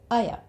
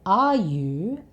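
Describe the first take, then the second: First: The words blend into one reduced sound, aya. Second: Both words are pronounced fully, with clear vowels.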